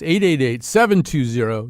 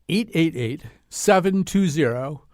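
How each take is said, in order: First: It is said at a normal pace. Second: It is said more slowly.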